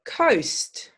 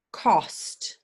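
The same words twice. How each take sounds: First: Coast with a gliding oh; clear coast. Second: Cost whispered with a short o. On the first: Teacher contrasting coast and cost. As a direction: glide the oh in Coast. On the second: Teacher contrasting cost and coast. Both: Shown as a demonstration. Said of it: "This is a tricky one".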